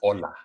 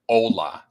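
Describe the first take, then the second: First: It is said with a native Spanish accent. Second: It is said with an American English accent. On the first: The speaker calls it right. "Say hola" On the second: The speaker calls it wrong. "Don't say it so gringo like. Don't say hola"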